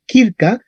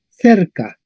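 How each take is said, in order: First: "kirka" starting with a hard k; Latin hard C. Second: "cerca" starting with a "th" sound; Spanish soft C. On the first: Teacher contrasts Latin with Spanish, hard-C kirka. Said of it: "En latín se leería kirka". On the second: Teacher gives the Spanish descendant, soft-C cerca. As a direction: say "cerca" as in Castilian, th-er-ka. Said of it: "en español será cerca". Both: Shown as a demonstration.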